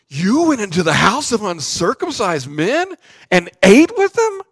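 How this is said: It is said in a shocked, disbelieving tone. The speaker calls it right. "I think it was more something like this"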